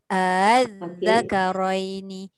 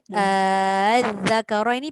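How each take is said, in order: First: The opening vowel is short, second hamza softened. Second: The opening vowel is drawn out long. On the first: The speaker calls it right. "Dia terus je" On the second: The speaker calls it wrong. "az-zakaraini panjang"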